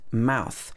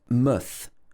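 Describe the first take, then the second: First: The vowel is a full 'ow' sound. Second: The vowel is reduced to a short 'uh'. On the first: The speaker calls it wrong. "it's not pronounced mouth" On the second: The speaker calls it right. "It's pronounced muth"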